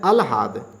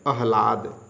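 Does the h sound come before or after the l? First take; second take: after; before. First: The h sound comes after the l. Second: The h sound comes before the l. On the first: The speaker calls it wrong. "अशुद्ध है अलहाद" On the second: The speaker calls it right. "शुद्ध है आह्लाद"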